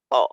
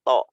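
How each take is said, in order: Both takes have the same delivery.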